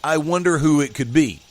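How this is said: It is said as one continuous phrase.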